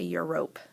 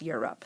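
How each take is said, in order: First: The second syllable has a long O vowel. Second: The second syllable has a short, reduced vowel. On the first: The speaker calls it wrong. "We don't say Europe" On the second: The speaker calls it right. "it does not have the long O sound"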